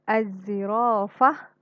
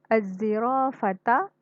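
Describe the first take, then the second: First: The word ends with a soft h sound. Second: The word ends with a t and a vowel. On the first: The reader stops at this word. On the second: The reading continues without stopping.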